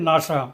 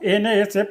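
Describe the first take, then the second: First: It is said as a single two-syllable word. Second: Each letter is said separately, one by one. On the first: The speaker calls it right. "শব্দের ন্যায় উচ্চারিত হবে" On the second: The speaker calls it wrong. "পৃথকভাবে উচ্চারিত হবে না"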